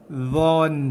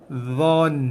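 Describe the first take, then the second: The two takes are said the same way.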